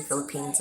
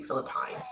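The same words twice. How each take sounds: First: Philippines ending like "peens"; "peens" pronunciation. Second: Philippines ending like "pines"; "pines" pronunciation. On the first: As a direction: say Philippines with a long ee in the last syllable. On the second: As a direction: say Philippines with a long i in the last syllable. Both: Shown as a demonstration. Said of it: "some people say Philippines".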